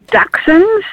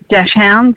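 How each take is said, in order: First: The word has its standard pronunciation. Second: The word has an Australian-style pronunciation. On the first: "The proper terminology is Dachshunds" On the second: "I've adopted the Aussie way of speaking, which is Dachshunds"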